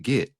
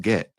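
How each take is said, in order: First: "get" said as "git". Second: "get" rhyming with bet; correct short E. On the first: Teacher quoting his slip, "get" pronounced git. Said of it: "You're pronouncing it get". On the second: Teacher correcting him, "get" with a short E. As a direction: say "get" with a clear E. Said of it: "It's pronounced get". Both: Retold or imitated.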